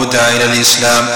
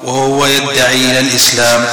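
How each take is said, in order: First: يدعى read as yud'a, passive, single light d; usual reading yud'a. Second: يدعي with open ya and doubled dal, yaddaʿi; Talha's variant reading. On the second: Teacher quotes Talha's reading يدعي with a doubled dal. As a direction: stress the doubled d in يدعي, yad-daʿi. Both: Shown as a demonstration. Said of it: "بفتح الياء وتشديد الدال".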